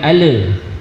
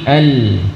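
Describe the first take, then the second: First: The l bounces into an extra e vowel. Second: The l ends cleanly with no extra vowel. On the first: The speaker calls it wrong. "Hindari mantul, bukan ale" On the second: The speaker calls it right. "tapi al"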